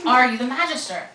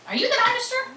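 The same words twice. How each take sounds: First: Louder, insistent demand; vehement repeat. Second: Sharply higher, startled question; wide-eyed question. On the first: Tessa demanding an answer from the boy, vehement. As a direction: press him hard for the answer. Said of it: "surprised by her vehemence". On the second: Tessa stunned, asking the strange boy. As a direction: blurt it out in shock, pitch jumping up. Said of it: "Tessa looked at him with wide eyes". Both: Acted.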